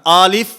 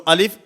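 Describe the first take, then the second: First: The first vowel is drawn out long. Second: The first vowel is short. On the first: The speaker calls it wrong. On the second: The speaker calls it right.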